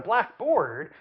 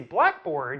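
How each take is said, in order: First: Both words carry clear stress. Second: Only the first word carries clear stress. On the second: A board for writing on in a classroom. "you know it's something I can write on in a classroom"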